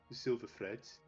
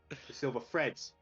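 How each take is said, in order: First: It is said in a Brummy accent. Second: It is said in a Cockney accent.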